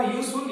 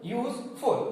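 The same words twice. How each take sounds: First: Said in the usual way. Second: useful with a stop after यूज, then फुल; pause between syllables. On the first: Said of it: "जैसे मैंने बोला". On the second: Shown as a demonstration. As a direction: break useful into two separate syllables. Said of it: "यूज रुक गया".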